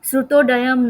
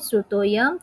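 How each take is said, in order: First: A 'd' sound is pronounced before the final part. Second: No 'd' sound is pronounced before the final part. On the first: The speaker calls it wrong. "नहीं बोलना है" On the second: The speaker calls it right. "ड वाला आता है तो उसमें पीछे तो आपको श्रुतः plus अयम लगा ही देना है"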